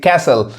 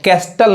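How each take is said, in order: First: The t sound is silent. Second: The t sound is pronounced. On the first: The speaker calls it right. "टी silent होता है" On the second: The speaker calls it wrong. "अब कैस्टल नहीं कहेंगे"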